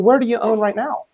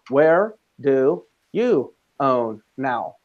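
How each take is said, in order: First: It sounds warm and genuinely interested. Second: It sounds blunt and uninterested.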